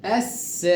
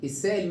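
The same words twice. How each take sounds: First: السائل with a very long held aa before the hamza; long madd. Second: Said in the usual way. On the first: Shown as a demonstration. Teacher shows connected madd, long held vowel. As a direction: stretch the aa in السائل, then finish short. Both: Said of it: "مديت أربع وخمس حركات".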